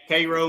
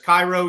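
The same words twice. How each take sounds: First: It is said with a different, local pronunciation. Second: It is said the standard, familiar way. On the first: It names the town in Missouri. "but that's Cairo, Missouri" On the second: It names the city in Egypt. "there's Cairo, Egypt"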